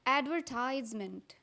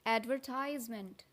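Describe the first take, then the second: The two takes are said the same way.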